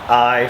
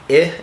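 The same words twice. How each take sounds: First: The vowel sounds like the letter's name. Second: The vowel is the short sound, as in icky. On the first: "I for long" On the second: "as in icky uh, for short"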